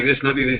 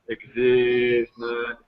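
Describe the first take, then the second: First: It is said fast. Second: It is said slowly.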